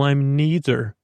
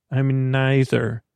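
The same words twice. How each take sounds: First: "neither" said with a long ee; first syllable of "neither" rhymes with knee; NEE-ther pronunciation. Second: "neither" said slowly as NIGH-ther; first syllable of "neither" rhymes with sigh; EYE-ther pronunciation. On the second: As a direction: say "neither" with a long i. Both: Acted. Says both pronunciations of neither.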